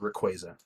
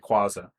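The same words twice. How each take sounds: First: The ending sounds like the word quasar. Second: The ending does not sound like quasar. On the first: This is the actual pronunciation. The speaker calls it right. "his name is actually Rayquaza, which I kind of think sounds cooler because he's it's like Quasar" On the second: This is the childhood pronunciation. The speaker calls it wrong. "When I was a kid, I called him Rayquaza"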